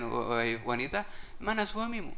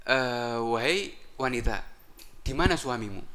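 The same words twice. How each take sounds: First: Sly disguised iblis. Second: Said in the usual way. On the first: Acted. Disguised iblis addresses the wife.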